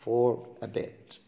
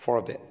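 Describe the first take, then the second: First: "For a bit" drawn out slowly; slow careful. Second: Quick for a bit. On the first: Teacher spelling out "For a bit" slowly for students. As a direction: stretch "For a bit" word by word. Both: Shown as a demonstration. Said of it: "بسرعة كده أقول لك for a bit".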